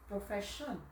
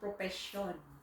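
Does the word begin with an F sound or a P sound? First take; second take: F sound; P sound. First: The word is said with an f sound. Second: The f sound is replaced by a p. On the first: This is how it sounds in English. "it's English, it's F" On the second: This is how it sounds in Tagalog. "All P"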